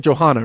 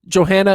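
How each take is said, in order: First: Johanna with an open "hah" in the middle; second name variant. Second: Johanna with a flat "han" as in hand; first name variant. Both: Shown as a demonstration. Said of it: "say a name two different ways".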